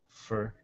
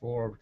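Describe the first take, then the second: First: The vowel is reduced to a short fur sound. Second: The vowel is a full or sound.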